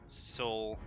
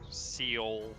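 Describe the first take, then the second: First: It sounds exactly like the word soul. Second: It sounds different from the word soul. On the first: The speaker calls it right. "I'm pretty sure it's just soul" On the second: The speaker calls it wrong. "I want to pronounce it wrong a few times"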